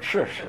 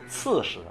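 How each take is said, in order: First: The first syllable begins with a curled ch sound. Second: The first syllable begins with a flat ts sound. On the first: The speaker calls it wrong. "我读错了" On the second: The speaker calls it right. "应该念刺哈"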